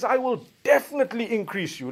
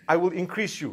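First: "I will definitely increase you" with "definitely" and "I" lifted higher; stress on definitely. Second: Said in the usual way. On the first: Shown as a demonstration. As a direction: lean hard on "definitely" as a firm promise. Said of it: "It's emphasized". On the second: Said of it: "Allah didn't say".

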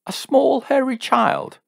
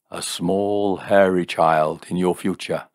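First: Very high, loud, outraged echo; shrieky indignant question; incredulous demand. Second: Matter-of-fact mystic statement; seer's pronouncement. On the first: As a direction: throw it back as a high-pitched demand. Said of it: "demanded Jim". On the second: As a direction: announce it steadily as a fortune-teller. Seer solemnly delivers his vision. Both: A narrator's reading.

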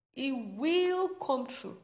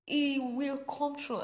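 First: Slow and loud, stress on will; a preacher's slow, loud, emphatic promise. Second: Slow and loud, stress on He; emphatic. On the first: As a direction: lean hard on will, word by word. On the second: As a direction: hit He hard, slowly. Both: Shown as a demonstration. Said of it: "I'm saying it emphatically".

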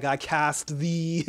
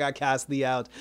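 First: Mock-solemn spell, drawn far out; dramatic incantation. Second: Said in the usual way. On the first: Recapper quoting the heroine banishing a demon, drawn-out incantation. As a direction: stretch it out like casting a spell.

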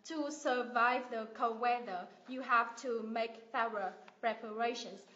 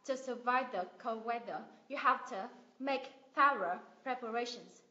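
First: Each word given full weight, "thorough preparations" spelled out; every word stressed. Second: "the" and "to" reduced, words linked; connected schwa reading. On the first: Teacher showing the choppy way not to read. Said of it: "thay vì mình đọc rời rạc". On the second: Teacher modelling natural linked English. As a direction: flow it with weak forms. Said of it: "Thì mình sẽ đọc là". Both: Shown as a demonstration.

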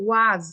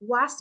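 First: "ওয়াজ" like "wozz", voiced at the end. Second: The wrong "ওয়াস", ending in an unvoiced s. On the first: Teacher models the word for pupils, "ওয়াজ" ending in z. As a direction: say "ওয়াজ" with a buzzing final z. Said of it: "উচ্চারণটা হবে ওয়াজ". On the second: Teacher shows pupils what to avoid, "ওয়াস" ending in s. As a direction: say "ওয়াস" like "wass". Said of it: "ওয়াস বলবো না". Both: Shown as a demonstration.

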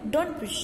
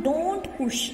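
First: Don't push said fast with the t dropped, like don push; rapid, t dropped. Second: Said in the usual way. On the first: Shown as a demonstration. Teacher demonstrating for the class: don't push fast, without the t. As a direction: skip the t: "don't push" as donpush. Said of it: "rapidly तेजी से अपन pronounce करें". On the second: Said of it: "पूरा pronounce करते हैं".

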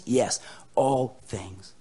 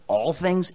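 First: "all things" slow and lower, settling it; firm affirmation. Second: "All things?" as a quick doubting question. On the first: Preacher answering a doubter, slow firm "all things". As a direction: answer with "all" drawn out and weighted. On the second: Listener questioning the preacher's promise, doubting "All things?". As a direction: query "All things?" as if unconvinced. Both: Acted.

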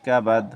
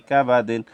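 First: কাবাদ closed on a final d; pausal stop. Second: কা বা দিন ending in a nasal -din; joined form. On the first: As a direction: drop the -in ending, stopping কাবাদ on d. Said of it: "ওয়াকফ করিলে". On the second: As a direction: sound the final in of কা বা দিন. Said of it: "ওয়াকফ করিলে ফি". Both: Shown as a demonstration.

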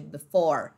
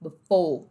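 First: Low "before" with final R; American R. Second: Low "Before" ending in closed oh; British dropped R. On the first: Teacher contrasting accents, R-ful "before". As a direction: sound the R closing "before". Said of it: "ao invés de". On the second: Teacher contrasting accents, R-less "Before". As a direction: end "Before" as foh, no R. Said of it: "esse R E some". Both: Shown as a demonstration.

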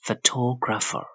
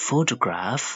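First: Slow phoTOgrapher with high second syllable; stress on TO. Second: PHOtograph, higher, with full first "foh"; stress on PHO. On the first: Teacher contrasts two words, stressed TO in photographer. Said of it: "Toe ဆိုပြီးမြင့်ပေးရတယ်". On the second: Teacher contrasts two words, stressed PHO in photograph. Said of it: "strike ကိုရှေ့ဆုံးမှာထားရတယ်". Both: Shown as a demonstration.

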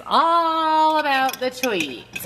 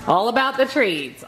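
First: Slow, higher, stretched all about the treats; drawn-out sing-song. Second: Said in the usual way. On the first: Real, not acted. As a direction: drag it out teasingly to the dog.

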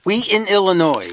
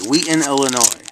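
First: Correcting himself. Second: Said in the usual way. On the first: Real, not acted. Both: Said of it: "No, is it Chicago?".

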